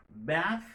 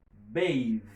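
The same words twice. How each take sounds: First: "Bath" with short a and voiceless th; voiceless final th. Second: "bathe" with long a and buzzing th; voiced final th. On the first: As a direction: lift "Bath" and end it on airy th. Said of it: "il vient non sonore". ("bath" ak th san vwa) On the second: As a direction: stress "bathe", letting the th hum. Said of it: "Les sonores". ("bathe" ak th sonò) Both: Shown as a demonstration.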